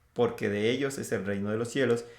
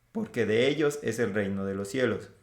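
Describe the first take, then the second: No difference in how they are said.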